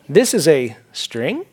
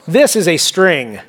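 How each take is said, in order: First: The voice rises at the end, like a question. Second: The voice falls at the end, like a statement. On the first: It may or may not be a string. "it's questionable" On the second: It is definitely a string. "you can tell the difference by the inflection"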